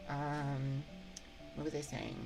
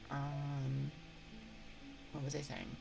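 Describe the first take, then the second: No difference in how they are said.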